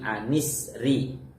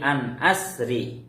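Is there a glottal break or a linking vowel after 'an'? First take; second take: linking vowel; glottal break. First: An 'i' vowel links 'an' smoothly into 'sri'. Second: A glottal break separates 'an' from 'asri'. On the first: "menggunakan hamzah wasol ... nunnya dikasih harokat kasroh" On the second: "qiraah yang pertama. ... menggunakan hamzah qata'"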